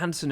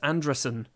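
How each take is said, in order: First: The surname sounds like Anderson. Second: The surname sounds like Andresen. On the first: The speaker calls it wrong. "It's not Anderson" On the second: The speaker calls it right. "it's Andresen"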